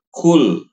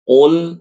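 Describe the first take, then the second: First: It starts with a plain k sound. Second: It starts with a deep throat q sound. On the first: The speaker calls it wrong. "bukan kul" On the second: The speaker calls it right. "yang benar qul"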